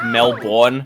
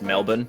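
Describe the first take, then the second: First: The ending is said fully, as it is spelled. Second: The ending is reduced, not said as spelled. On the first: This is how outsiders read the name. The speaker calls it wrong. "it looks like Melbourne" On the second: This is how locals say the name. The speaker calls it right. "but it's just pronounced Melbourne"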